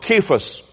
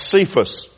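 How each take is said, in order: First: The name begins with a K sound. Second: The name begins with an S sound. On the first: The speaker calls it right. "It sounds as a K sound" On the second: The speaker calls it wrong. "we usually hear this name pronounced Cephas"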